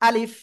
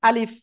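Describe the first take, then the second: Both takes have the same delivery.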